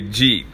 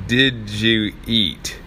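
First: It is said fast, run into one word. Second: It is said slowly, each word clear.

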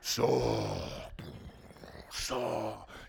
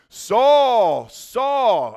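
First: It is said in a deep, booming Mufasa voice. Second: It is said in his ordinary reading voice.

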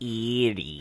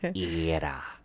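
First: The word ends in an 'ee' sound. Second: The word ends in an 'uh' sound. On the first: The speaker calls it wrong. "The least you can do is say it right. It's not Erie" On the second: The speaker calls it right. "It's Era. My dad's from Cleveland"

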